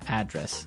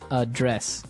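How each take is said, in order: First: The stress is on the first syllable. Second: The stress is on the second syllable.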